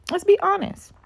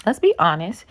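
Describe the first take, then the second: First: Let's be honest in a sudden high squeak; squeaky high mock. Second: Said in the usual way. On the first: Vlogger mocking women who dodge accountability, squeaky high voice.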